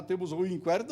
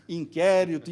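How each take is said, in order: First: Inquérito with the u sounded, in-KWÉ-rito; wrong pronunciation. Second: Inquérito with a silent u, in-KÉ-rito, louder; firm correct inkérito, silent u; correct pronunciation. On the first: Retold or imitated. Lecturer mimicking the police station's mispronunciation. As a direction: imitate the police station saying inkwérito. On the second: Shown as a demonstration. Lecturer stating the correct form firmly. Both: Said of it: "Não, não inquérito".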